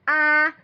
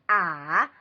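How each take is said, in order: First: The pitch stays high and level. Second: The pitch dips low, then rises.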